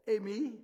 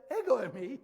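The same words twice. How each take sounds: First: Said in the usual way. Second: "Ego eimi" punched out, louder; emphatic EGO EIMI. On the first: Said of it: "Jesus could have said". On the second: Shown as a demonstration. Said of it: "with that emphatic, "ego eimi".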